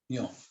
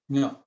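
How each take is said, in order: First: The letter name sounds like yon. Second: The letter name sounds like nyo. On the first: This is how it is taught in school. "when we were taught in uh, school, it is pronounced at yon" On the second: This is how it is said in Nepal Bhasa. "In Nepal Basa, it is pronounced as nyo"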